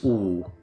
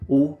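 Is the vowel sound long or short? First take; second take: long; short. First: The vowel is held for longer. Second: The vowel is held only briefly.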